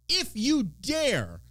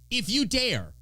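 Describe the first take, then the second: First: Slow ominous warning. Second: Said in the usual way. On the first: Acted. Warning local Republicans, drawn out slowly. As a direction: stretch out if you dare, very slowly.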